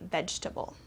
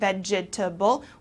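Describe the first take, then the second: First: It is shortened to three syllables. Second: Every syllable is pronounced, four in all. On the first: The speaker calls it right. "we kind of shorten it and say vegetable" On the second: The speaker calls it wrong. "we don't pronounce every single syllable. Instead of saying vegetable"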